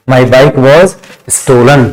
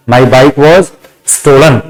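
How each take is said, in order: Both takes have the same delivery.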